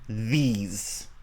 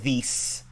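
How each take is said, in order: First: The word ends with a buzzing z sound. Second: The word ends with a hissing s sound. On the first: The speaker calls it right. "these it has like a it has a Z sound at the end" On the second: The speaker calls it wrong. "and not these"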